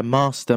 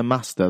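First: Long RP vowel in "Master"; "Master" with a long, posh "aa"; posh RP accent. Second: "Master" with a short, flat "a"; northern "Master", short vowel. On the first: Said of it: "a slightly R P'd one". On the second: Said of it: "Master versus Master". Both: Shown as a demonstration.

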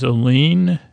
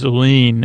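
First: "Aline" echoed with a questioning rise. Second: Said in the usual way. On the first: Retold or imitated. Picard repeating his wife's name, questioning "Aline". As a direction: let "Aline" lift at the end as a question. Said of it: "And Picard says". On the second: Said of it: "he also says".

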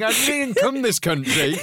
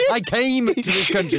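First: "come this country" drawn out slowly; deliberate wrong version. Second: "came to" stressed as the fix; emphatic correction. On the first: Mock correction of the broken English. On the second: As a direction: hit "came to" to correct the grammar. Corrected version of the broken English. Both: Shown as a demonstration.

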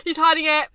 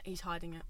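First: Louder, higher repeat; emphatic suspicion. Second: Quiet, low verdict; instant suspicion. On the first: Friend repeating her instant reaction to his lie, emphatic suspicion. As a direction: push the verdict out loudly. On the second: Friend giving her instant reaction to his lie, quiet suspicion. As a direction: say it low, under the voice. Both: Retold or imitated. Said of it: "instantly I'm like".

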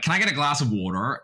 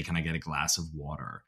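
First: Higher, louder mock American order; put-on American accent. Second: Put-on American accent. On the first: Australian friend orders water, mock American accent. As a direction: switch to a hammed-up American twang. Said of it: "one of them will be like". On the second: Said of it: "you know, to say".

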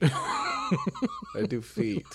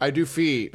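First: Laughing mock repeat. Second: Said in the usual way.

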